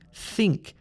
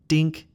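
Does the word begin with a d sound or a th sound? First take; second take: th sound; d sound. First: The word begins with a th sound. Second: The word begins with a d sound. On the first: The speaker calls it right. "It's thing, think" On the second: The speaker calls it wrong. "This sound is not a d sound"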